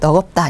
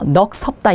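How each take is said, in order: First: A g sound links into the second syllable. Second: An s sound links into the second syllable. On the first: The speaker calls it right. "너겁다 이라고 발음을 합니다" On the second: The speaker calls it wrong. "이런 식으로 앞에처럼 넘기는 게 아니라"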